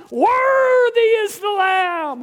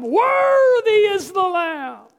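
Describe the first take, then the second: First: Loud, high, slow shout of worship; shouted praise. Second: Loud, high, slow, voice catching into a cry; shouted praise with a cry. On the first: Heaven praising the Lamb, loud slow shout. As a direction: call it out over the crowd. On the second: Heaven praising the Lamb, shout breaking into a cry. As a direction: shout it again as the feeling breaks through. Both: Retold or imitated. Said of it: "they began to shout".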